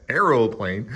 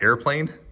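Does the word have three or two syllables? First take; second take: three; two. First: The word is said with three syllables. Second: The word is said with two syllables.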